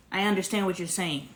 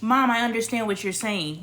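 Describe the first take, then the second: First: Gentle I understand, no argument; calm acknowledging tone. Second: Said in the usual way. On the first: Shown as a demonstration. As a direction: say it to show you really heard her. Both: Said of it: "Do you see the difference?".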